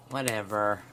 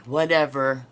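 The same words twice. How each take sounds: First: Said in the usual way. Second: Loud, dismissive "Whatever." thrown out; disrespectful whatever. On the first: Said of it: "when you use it like". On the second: Shown as a demonstration. Showing viewers the rude way to say it, loud and dismissive. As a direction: toss off "Whatever." like a snotty teen, much louder. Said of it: "That's a very disrespectful word".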